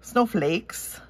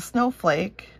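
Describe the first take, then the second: First: Snowflakes with a slipped-in Minnesota vowel; a touch of Minnesota on snowflakes; Minnesota accent. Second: Said in the usual way. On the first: Real, not acted. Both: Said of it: "my Minnesota accent popping out".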